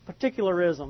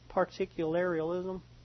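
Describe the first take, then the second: First: No extra syllables come before the ending. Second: Extra syllables are added before the ending. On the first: The speaker calls it right. "Okay, there you go" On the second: The speaker calls it wrong. "Is that the way you say that?"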